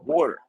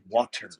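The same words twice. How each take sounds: First: Water is said with a Philadelphia pronunciation. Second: Water is said with a general, standard pronunciation. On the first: "We say water" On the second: "Everyone says water"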